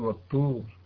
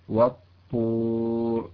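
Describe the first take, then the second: First: The t sound is light and plain. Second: The t sound is heavy and emphatic. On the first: The speaker calls it wrong. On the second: The speaker calls it right.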